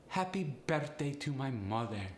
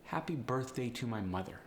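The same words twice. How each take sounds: First: Polish accent with slight upward inflection; Polish-accented, evenly stressed syllables. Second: Said in the usual way. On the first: Shown as a demonstration. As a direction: lilt it like a Polish speaker. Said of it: "Polish sound was a slight upward inflection". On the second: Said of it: "a slight upward inflection".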